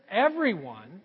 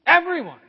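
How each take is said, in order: First: Said in the usual way. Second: Everyone called out high and loud; loud preacher's call; emphatic everyone. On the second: Shown as a demonstration. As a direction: belt out everyone to the whole room. Repeating the verse for emphasis.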